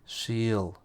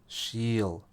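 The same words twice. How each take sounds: The two takes are said the same way.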